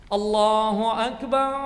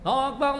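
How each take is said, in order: First: It is said slowly and measured. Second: It is said fast and hurried.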